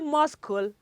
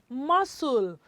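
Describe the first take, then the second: First: The c is pronounced as a k sound. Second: The c is silent, with no k sound. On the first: The speaker calls it wrong. "Do you say muscle? I'm sure you don't do that, right?" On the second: The speaker calls it right. "It is muscle"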